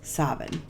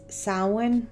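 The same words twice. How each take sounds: First: The word is said in its older pronunciation. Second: The word is said in its modern pronunciation. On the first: "the older terminology, which is Samhain" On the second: "It is also pronounced as Samhain"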